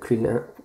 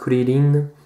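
First: It is said with an English pronunciation. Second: It is said with a Japanese pronunciation. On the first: "Krillin en anglais" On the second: "en japonais ici Krillin"

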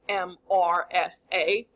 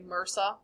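First: Each letter is spoken separately. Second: It is said as a single word. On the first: The speaker calls it right. "It's an acronym, right? Each letter stands for something" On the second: The speaker calls it wrong. "we try to make it a word to make it easier to say"

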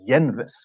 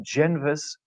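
First: The word begins with a Y sound. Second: The word begins with a J sound. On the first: The speaker calls it right. "it's actually Jenvis, like the Japanese yen" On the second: The speaker calls it wrong. "it's not GenVis"

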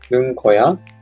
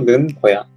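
First: The pitch rises at the end. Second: The pitch falls at the end. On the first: It strongly asks for an answer or explanation, with surprise. "疑問文の" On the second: It explains a situation, with some surprise. "平常文の"

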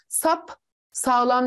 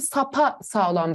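First: No vowel is heard between the two parts. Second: An extra a vowel joins the two parts. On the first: The speaker calls it wrong. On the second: The speaker calls it right.

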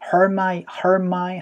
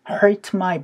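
First: The t at the end of hurt is dropped. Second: The t at the end of hurt is clearly pronounced. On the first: "hurt my 하면서 RTM에서 T 사운드를 날려주는 소리" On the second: "hurt my back이라고 하지 않고"

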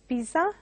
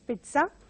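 First: The middle consonant is a plain 'z' sound. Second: The middle consonant is a 'ts' sound. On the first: The speaker calls it wrong. "mispronounced as pizza by many. They go by the spelling" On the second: The speaker calls it right. "it has to be pronounced as pizza"

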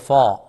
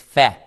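First: The fa sound is heavy and thick. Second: The fa sound is soft and light. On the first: The speaker calls it wrong. "Do not say fa" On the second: The speaker calls it right. "It's fa"

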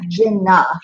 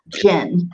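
First: An extra vowel is added after the n. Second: The syllable ends sharply on the n sound. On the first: The speaker calls it wrong. "Or not jinna" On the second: The speaker calls it right. "the first syllable is jin siya tuka"

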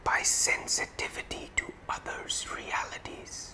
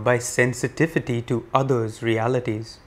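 First: The words are whispered. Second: The words are spoken at normal volume. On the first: "And now whispering" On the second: "In a regular voice now"

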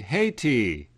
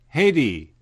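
First: The word is said slowly and carefully. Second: The word is said quickly and compressed. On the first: "Slowly we say Haiti" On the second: "when we speak quickly, we say Haiti"

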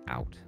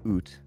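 First: The vowel sounds American, a broad 'ow'. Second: The vowel sounds Canadian, close to 'oot'. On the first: The speaker calls it right. "you have to say out" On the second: The speaker calls it wrong. "Can you say it less Canadian"

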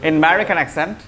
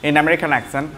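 No difference in how they are said.

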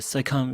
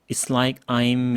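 First: The phrase is blended into one quick word. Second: The words are separate but 'I am' is contracted. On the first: The speaker calls it right. "이 사람 뭐지? 발음이 완전 미국인이네?" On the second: The speaker sounds like a foreigner. The speaker calls it wrong. "It's like I'm 이 정도가 한계거든요"

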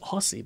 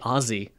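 First: It is pronounced the way the spelling suggests. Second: It is pronounced the way Australians say it. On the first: The speaker calls it wrong. "it says Aussie" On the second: The speaker calls it right. "I should say Aussie"

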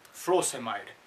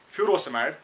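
First: It does not begin with a plain 'foo' sound. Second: It begins with a plain 'foo' sound. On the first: The speaker calls it right. "Lekin iski pronunciation hai" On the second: The speaker calls it wrong. "we start with fu like that"

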